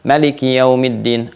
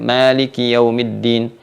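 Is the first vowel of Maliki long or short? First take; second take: short; long. First: The first vowel of Maliki is kept short. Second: The first vowel of Maliki is drawn out long. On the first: This is another accepted reading tradition. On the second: This is one accepted reading tradition.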